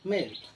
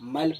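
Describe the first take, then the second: First: The vowel is an 'e' sound. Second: The vowel is an open 'ai' sound. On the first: The speaker calls it right. "इसको पढ़ेंगे मेल" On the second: The speaker calls it wrong. "मैल पढ़ेंगे तो गलत हो जाएगा"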